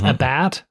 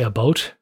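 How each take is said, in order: First: The vowel sounds like the one in 'bat'. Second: The vowel sounds like the one in 'boat'. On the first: This is how a person from Virginia says it. "she's from Virginia, and so she says" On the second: This is how people from the speaker's region say it. "we say a boat"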